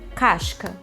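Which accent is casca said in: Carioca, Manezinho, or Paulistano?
Manezinho. It is said in a Florianópolis accent. "Sotaque do Manezinho, lá, Santa Catarina, Florianópolis"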